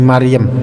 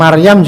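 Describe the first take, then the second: First: It is said with Javanese sounds. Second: It is said with Arabic sounds. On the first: "jadi Maryam, ya kan? Orang Jawa seperti itu" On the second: "Bilang Maryam juga sulit"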